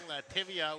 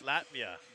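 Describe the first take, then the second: First: It sounds like the name of a yogurt brand. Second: It sounds like the usual name of the country. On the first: The speaker calls it wrong. "I did pronounce it wrong. I was saying Lativia, which is yogurt" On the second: The speaker calls it right. "but it's Latvia"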